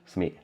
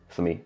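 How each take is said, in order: No difference in how they are said.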